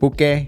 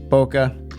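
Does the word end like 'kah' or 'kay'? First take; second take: kay; kah. First: The word ends with a 'kay' sound. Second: The word ends with a 'kah' sound. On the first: "I like to say bouquet" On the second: "I just feel like I have to say Boca Raton"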